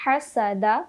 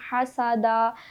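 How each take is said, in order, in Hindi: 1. छोटे स्वरों को छोटा ही रखा जाता है, खींचा नहीं जाता। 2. छोटे स्वरों को लंबा खींचा जाता है। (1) "बल्कि हम पढ़ेंगे" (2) "हरकत को हम खींच कर नहीं पढ़ते। हम हसदा, दरबा ऐसे नहीं पढ़ेंगे"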